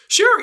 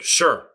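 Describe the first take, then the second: First: It is said in a warm, upbeat way. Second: It is said in a curt, annoyed way. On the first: The writer happily agrees. "one person hears, sure, yeah, all right, great" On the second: The writer is displeased or reluctant. "Another person hears like, sure. I'm like, uh-oh"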